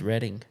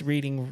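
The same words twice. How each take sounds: First: The first syllable sounds like 'red'. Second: The first syllable does not sound like 'red'. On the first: The speaker calls it right. "Don't do R E A and spell red" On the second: The speaker calls it wrong. "everybody mispronounces it"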